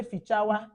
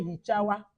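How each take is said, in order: First: Fichawa said with an f sound, fi-cha-wa; Anambra dialect word. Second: Hichawa said with an h sound, hi-cha-wa; Imo dialect word. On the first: Teacher shows the Anambra fichawa, clear f sound. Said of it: "So Anambra will say fichawa". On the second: Teacher contrasts the Imo hichawa, soft h sound. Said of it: "Imo will say hichawa". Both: Shown as a demonstration.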